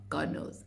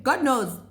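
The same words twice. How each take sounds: First: "God knows" breathed in a soft unvoiced whisper. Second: Said in the usual way. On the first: Shown as a demonstration. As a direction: drop to a secret aside.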